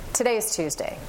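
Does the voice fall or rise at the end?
fall. The voice falls at the end. The speaker states it with confidence. The speaker calls it right.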